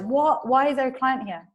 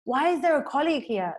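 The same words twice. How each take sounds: First: Alarmed, higher and louder questioning; mock fright, pitch jumping up; frightened reaction. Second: Higher-pitched irritated question; mock indignant complaint; annoyed. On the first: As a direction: act out a startled, frightened question. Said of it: "Bobby is feeling very frightened". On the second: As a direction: act out being put out by an intrusion. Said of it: "he feels quite annoyed".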